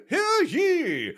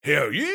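First: Much higher, ringing crier call; town crier. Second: Town crier. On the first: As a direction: hear ye bellowed way up high. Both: Acted. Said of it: "reenact it with you two".

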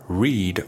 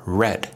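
First: "read" said with a long ee, like reed; long-vowel "read", rhyming with need; present-tense read. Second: "read" said with a short e, like red; short-vowel "read", rhyming with bed; past-tense read. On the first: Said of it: "The read pronunciation is a stressed syllable". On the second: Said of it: "The read pronunciation is an unstressed syllable". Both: Shown as a demonstration.

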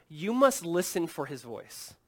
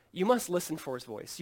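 First: Slow emphasis. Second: Said in the usual way. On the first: Shown as a demonstration.

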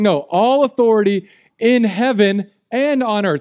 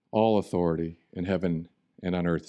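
First: "all" punched, louder and higher; stress on all. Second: Said in the usual way. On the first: Shown as a demonstration. Jesus claiming authority, stressing "all". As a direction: hit the word "all" hard. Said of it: "He's saying". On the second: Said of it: "we read this".

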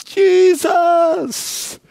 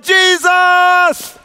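First: High cry of Jesus; lifted cry. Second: High, loud cry of Jesus; full shout of praise. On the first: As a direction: call out his name. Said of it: "Can somebody cry". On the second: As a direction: lead the crowd in a shout. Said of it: "can somebody just shout". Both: Shown as a demonstration.

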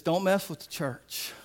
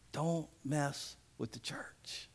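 First: Said in the usual way. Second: Hushed, slow whisper of the warning; slow, soft stage whisper. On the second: Shown as a demonstration. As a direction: lean in and whisper it like a secret threat. Repeated warning, then whispered.

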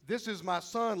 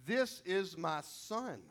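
First: Bold proclamation. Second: Slow, simple and tender, no flourish; a father's plain declaration of his son; simply stated. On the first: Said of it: "God, he doesn't say". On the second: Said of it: "he just simply says". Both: Pretend.

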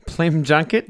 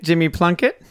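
First: "Plim Junkett", the first sounds of Jimmy Plunkett swapped; jumbled syllables. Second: Said in the usual way. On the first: Retold or imitated. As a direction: read "Plim Junkett" with Pl and J traded.

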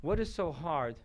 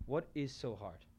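First: Said in the usual way. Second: Much softer, musing repeat; softly repeated rhetorical question. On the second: Shown as a demonstration. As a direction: drop the voice and ask it to yourself.

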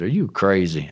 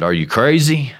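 First: Said in the usual way. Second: Higher, louder disbelief; incredulous. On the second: Retold or imitated. Realtor hearing God set the price, louder incredulity. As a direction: retort with mock astonishment.

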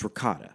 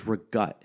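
First: RICOTTA in full with a K sound and final A; correct ricotta. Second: REGUT quoted with a G and the ending lopped off; mocked dialect word. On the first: Shown as a demonstration. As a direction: correct it to "ricotta", all three syllables. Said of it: "pronouncing the word fucking correctly". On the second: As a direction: say "regut" for ricotta, stopping on the last consonant. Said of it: "What the fuck is regut?".

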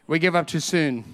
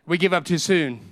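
Both takes have the same delivery.

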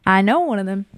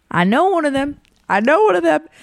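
First: Said in the usual way. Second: Higher and brighter, the voice lifting as it sinks in; excited recognition. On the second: Retold or imitated. At the beer pong table, recognizing a crush, pitched up with excitement. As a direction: say it like you just realized who he is. Spotting a guy she knows.

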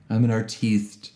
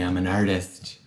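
First: "artiste" with the stress moved to a long "teest"; mock-pretentious artiste. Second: Said in the usual way. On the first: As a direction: say "artiste" French-style, ar-TEEST.

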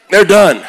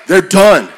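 The two takes are said the same way.

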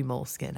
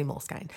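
First: Moleskine said like "mole skin"; short i in the last syllable of Moleskine; alternative pronunciation. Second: Moleskine said like "mole skyne"; long i in the last syllable of Moleskine; own pronunciation. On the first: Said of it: "I don't know, but it's spelled". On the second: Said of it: "So I say Moleskine". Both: Shown as a demonstration.

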